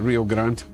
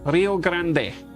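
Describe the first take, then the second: First: It is said the way people north of the border do. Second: It is said the way people south of the border do. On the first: The speaker calls it wrong. "we're all the idiots for calling it Rio Grande" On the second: The speaker calls it right. "If you live south of the American border, that is how they say it"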